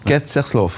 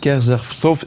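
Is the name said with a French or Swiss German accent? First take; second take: Swiss German; French. First: The name is said with a Swiss German accent. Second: The name is said with a French accent. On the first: "Il faut le faire avec l'accent" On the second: "Est-ce que je prononce juste?"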